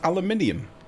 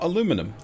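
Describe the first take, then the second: First: The word is said with five syllables. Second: The word is said with four syllables. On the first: The speaker calls it right. "It's aluminium. There are more letters in there" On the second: The speaker calls it wrong. "It's not aluminum"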